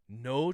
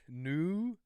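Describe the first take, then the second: First: The first syllable has an 'oh' vowel. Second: The first syllable has an 'oo' vowel. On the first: "No tropics" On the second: "I'm gonna go with new"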